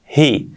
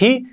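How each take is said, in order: First: He with a light breathed H; just breathe the H of he; soft H. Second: He with a Spanish jota; harsh H. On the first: Teacher giving the correct sound, soft H. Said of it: "la H suave". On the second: Teacher warning learners of the mistake, harsh H. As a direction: scrape the H of he like Spanish J. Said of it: "cuidado que no es he". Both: Shown as a demonstration.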